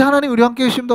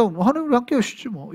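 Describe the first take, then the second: First: Said in the usual way. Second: A dismissive shrug in the voice, trailing off softer; shrugging, indifferent. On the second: Shown as a demonstration. Preacher mocking an unmoved listener, offhand and dismissive. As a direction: toss it off as if it means nothing. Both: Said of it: "이렇게 끝나는데".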